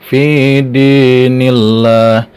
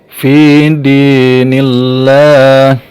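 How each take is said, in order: No difference in how they are said.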